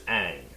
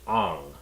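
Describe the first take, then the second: First: The vowel is not an 'ah' sound. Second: The vowel is an 'ah' sound. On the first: This is the name as the original source has it. The speaker calls it right. "In the show, the main character's name is Aang" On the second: This is the name changed to suit the setting's region. The speaker calls it wrong. "they are pronounced Ah, so that's why it's Ang"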